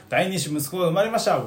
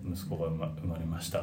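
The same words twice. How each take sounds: First: Bright, higher, excited news; cheerful announcement. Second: Quiet, downcast imitation; mock gloomy report. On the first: Shown as a demonstration. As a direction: announce it with joy. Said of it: "普通だったら". (嬉しそうに元気に発表) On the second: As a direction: mimic the dreary announcement. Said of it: "ぐらいのテンションだったよ". (暗いテンションを真似て)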